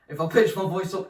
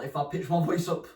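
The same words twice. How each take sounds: First: The voice is pitched up high and cracks. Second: The voice stays at its normal low pitch.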